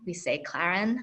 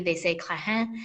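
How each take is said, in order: First: It is said with an American pronunciation. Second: It is said with a Haitian pronunciation.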